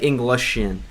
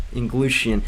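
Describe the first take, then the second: First: "Englishian" with a short middle vowel; second pronunciation attempt. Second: "Inglushian" with a long oo in the middle; first pronunciation attempt. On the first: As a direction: say "Englishian" closer to the word English. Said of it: "Okay, maybe, like". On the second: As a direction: say "Inglushian" as ing-GLOO-shun. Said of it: "I guess I'm saying it wrong". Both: Shown as a demonstration.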